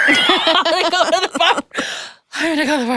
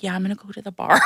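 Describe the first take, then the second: First: High, laughing repeat of the joke. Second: Said in the usual way. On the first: Retold or imitated. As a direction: mom joking she needs a drink, laughing. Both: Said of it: "I'm like".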